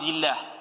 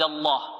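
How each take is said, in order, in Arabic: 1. اللام مرققة ورقيقة. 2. اللام مفخمة وغليظة. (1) "وترقق إذا كسر ما قبلها" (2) "تفخم أو تغلظ، هكذا"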